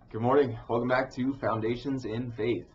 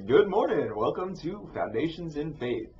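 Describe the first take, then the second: First: It is said in his normal speaking voice. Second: It is said in a game show announcer voice.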